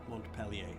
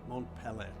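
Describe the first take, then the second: Both takes have the same delivery.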